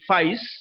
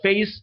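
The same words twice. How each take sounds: First: It is said with a Cockney vowel. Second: It is said with a standard vowel. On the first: "a typical Cockney English" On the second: "normally what we pronounce"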